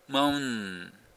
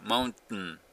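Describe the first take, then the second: First: The n sounds run together with no stop. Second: A brief stop breaks the middle of the word. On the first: It is hard to tell the word means mountain. The speaker calls it wrong. "T も発音しないと、マウン、マウンですね。N とN がつながるだけになっちゃう" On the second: It is clear the word means mountain. The speaker calls it right. "その間がT です"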